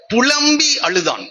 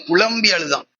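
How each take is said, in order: First: புலம்பி அழுதான் drawn out slowly, புலம்பி lifted high; slow emphatic repeat. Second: Said in the usual way. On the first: Shown as a demonstration. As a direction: lean hard on புலம்பி, stretching each syllable. (புலம்பி என்ற சொல்லை உயர்த்தி மெதுவாக அழுத்திச் சொல்லுதல்)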